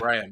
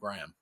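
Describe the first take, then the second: First: The name is said with a British pronunciation. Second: The name is said with an American pronunciation. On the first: "people called Graham" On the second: "you hear Americans ... they call him Graham"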